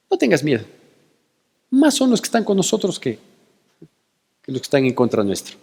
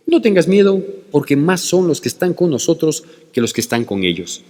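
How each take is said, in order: First: Softer, calm and steady; calm reassurance. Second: Said in the usual way. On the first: Retold or imitated. Prophet calmly reassuring his scared servant, soft and steady. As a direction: settle the frightened servant gently. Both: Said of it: "la tranquilidad del profeta Eliseo".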